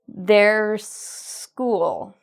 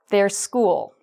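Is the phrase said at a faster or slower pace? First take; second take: slower; faster. First: The phrase is said at a slower pace. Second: The phrase is said at a faster pace. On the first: "one last time together" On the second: "now let's say it faster"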